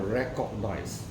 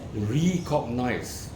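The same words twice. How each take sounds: First: The word is said blended, as usual 'recognize'. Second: The prefix re is said apart, like 'ree-cognize'. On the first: "rather than recognize" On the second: "I prefer to use recognize"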